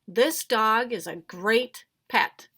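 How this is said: It is said excitedly, with strong feeling. The writer feels strongly about it. "I'd put an exclamation mark there. Then you would read it like this"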